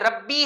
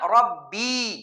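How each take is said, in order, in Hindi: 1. आखिरी स्वर छोटा है। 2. आखिरी स्वर लंबा खींचा हुआ है। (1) "या नहीं है इसके बाद" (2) "बाद लोग इसको पढ़ते हैं"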